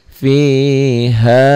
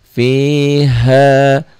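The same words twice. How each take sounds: No difference in how they are said.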